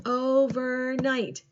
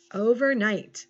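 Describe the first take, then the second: First: "Overnight" slowly split into three beats; slow, separated syllables in "Overnight". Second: Said in the usual way. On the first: Shown as a demonstration. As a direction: clap out "Overnight" as o, ver, night. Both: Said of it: "Clap it out".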